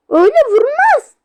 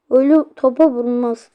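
First: "Öyle vurmaz" yelled high and loud; frustrated yell. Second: Said in the usual way. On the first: Real, not acted. Gamer yelling at his Roblox team, loud and high. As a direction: protest the bad kick loudly. Complaining about the shot.

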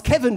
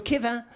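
First: Said in the usual way. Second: "Kevin" in French, ending in a nasal vowel; Frenchify "Kevin" as "Kevã"; French version. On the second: Shown as a demonstration. Teacher renaming a pupil, French pronunciation of "Kevin". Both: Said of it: "die französische Version ihres Namens".

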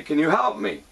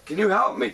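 First: Said in the usual way. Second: Asking with a rising, hopeful question; high pleading question to the priest; retold plea. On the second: Retelling asking a worker for help, pleading upward. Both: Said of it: "I said".

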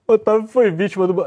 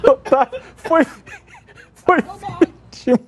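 First: Said in the usual way. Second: Breaking into laughter mid-sentence; words squeezed out through giggles; laughing. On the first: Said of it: "composes himself after laughing". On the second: Real, not acted. Laughing at colleague's mosquito mishap.

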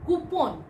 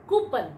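First: Coupon. said as KOO-pon; Coupon. said wrongly, as KOO-pon; common mispronunciation. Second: Coupon. said as KOO-pun; Coupon. said rightly, as KOO-pun; correct pronunciation. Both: Shown as a demonstration.

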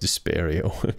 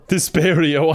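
First: Low, slow, rising spell name; mock ominous incantation. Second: Loud, punchy spell cast; mock spell shout. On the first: Repeating the depression spell as a dark curse, low. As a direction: murmur it darkly like a curse. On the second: Casting a spell at the teacher, called out loud. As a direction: call the spell out like a duelist.

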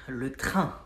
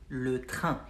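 The two takes are said the same way.

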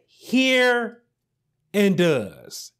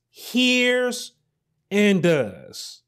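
First: "Hear" lifted high and held, then "and does"; stress on hear and does. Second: "Hears" sung out high and long, "and does" dropped back down; stress on hears and does. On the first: Preacher stressing "Hear" and "does" for his congregation. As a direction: lean hard on "Hear" and "does". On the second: Preacher repeating "Hears" and "does" to drive it home. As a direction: stretch "Hears" up high, then settle on "and does". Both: Shown as a demonstration. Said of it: "I want to put emphasis on the words".

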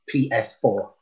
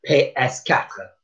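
First: Said in the usual way. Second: P S quatre, slow, French "pé ess katr". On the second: Shown as a demonstration. Teacher repeating PlayStation four in French. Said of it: "we just did".

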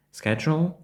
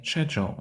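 First: "schedule" begun with sk; American variant. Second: "schedule" begun with sh; British variant. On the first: Teacher shows one accepted version, American sk pronunciation. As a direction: say "schedule" as SKED-jol. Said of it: "Іноді ми чуємо". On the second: Teacher shows the other version, British sh pronunciation. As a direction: say "schedule" as SHED-jol. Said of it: "а іноді schedule". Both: Shown as a demonstration.

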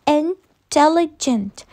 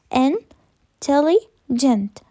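First: Said in the usual way. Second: "Intelligent" split into slow chunks with pauses; syllable by syllable. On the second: Shown as a demonstration. Teacher counting syllables for the class, "Intelligent" slowly pulled apart. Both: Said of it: "how many syllables do we have".

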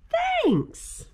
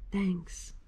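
First: High squeaky bear thanks; grateful little bear voice. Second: Quiet heartfelt thanks; soft grateful thanks. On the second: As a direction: say it softly, touched. Bear's final grateful thanks. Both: Acted.

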